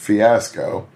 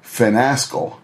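First: The word has no n sound after the i. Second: The word has an n sound after the i. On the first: The speaker calls it right. "pronounced the word fiasco" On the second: The speaker calls it wrong. "There's no N"

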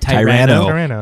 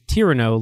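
First: It is pronounced like the start of Tyrannosaurus. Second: It is pronounced to rhyme with Cyrano. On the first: The speaker calls it wrong. "I mispronounced it because my brain just said, I was saying Tyranno" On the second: The speaker calls it right. "it's supposed to be like, it's Tyranno, like Cyrano"

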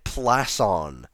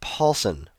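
First: The name begins with a 'Pl' sound. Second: The name begins with a 'Paul' sound. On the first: The speaker calls it wrong. "I was saying it Plasson" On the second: The speaker calls it right. "His name is pronounced Paulson"

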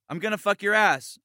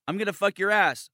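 Both takes have the same delivery.

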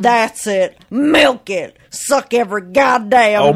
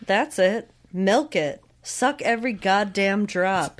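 First: It is read in a put-on character voice. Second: It is read in the speaker's own normal voice. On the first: "Can you do a Colby Jack voice?" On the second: "you're reading this in like your voice rather than doing like a Colby voice"

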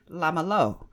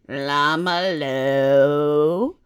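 First: It is said with a mild foreign accent. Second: It is said with an exaggerated foreign accent. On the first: This is how the speaker actually said it. "I didn't say it like that" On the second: Someone else is mocking the speaker's accent. "I said it like this, oh, your accent"

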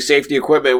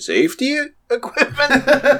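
First: It is said in a plain, neutral tone. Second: It is said with an ironic, doubtful inflection.

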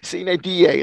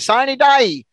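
First: It is pronounced with a classical Latin reading. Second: It is pronounced with an English-style reading. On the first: The speaker calls it right. "Sine die, it should be" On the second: The speaker calls it wrong. "most people mispronounce it and call it sine die"

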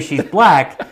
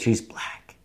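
First: It is said in a normal voice. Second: It is whispered.

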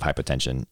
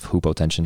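First: The word begins with a 'hi' sound. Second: The word begins with a 'hoo' sound. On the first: It follows the usual English pronunciation of the prefix. "when the doctor says you have hypotension" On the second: It follows the Greek pronunciation of the prefix. "The Greek prefix is hupo"

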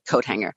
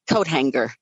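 First: Hanger is said with a plain ng sound. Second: Hanger is said with a hard g sound. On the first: "instead of" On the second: "adding the hard G in coat hanger"

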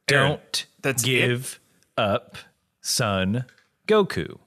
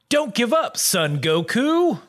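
First: It is said slowly, with choppy separated words. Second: It is said at normal speed, smoothly.

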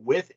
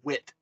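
First: The word ends with a th sound. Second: The word ends with a t sound. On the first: The speaker calls it wrong. "It is not with" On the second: The speaker calls it right. "It is wit"

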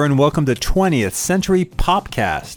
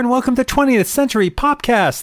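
First: It is said slowly and calmly. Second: It is said fast and rushed.

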